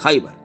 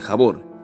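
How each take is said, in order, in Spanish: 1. El nombre se dice con las vocales ai-ar. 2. El nombre se dice con las vocales a-or. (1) "tal como lo pronuncian los musulmanes" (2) "tal como lo pronunciamos y conocemos nosotros"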